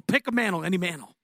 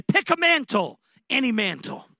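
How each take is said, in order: First: Said in the usual way. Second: A much higher, ringing call; inviting voice. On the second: Retold or imitated. Heavenly voice inviting the young man, high and ringing. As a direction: call out the offer brightly, then ease down. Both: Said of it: "he heard a voice say".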